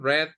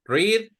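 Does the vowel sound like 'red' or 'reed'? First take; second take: red; reed. First: The vowel is short, like in red. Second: The vowel is long, like in reed. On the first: It is the past tense or past participle. "the pronunciation in the past and the past participle is red, like the color" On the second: It is the present tense.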